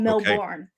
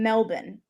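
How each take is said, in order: First: It is said with an American accent. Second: It is said with an Australian accent.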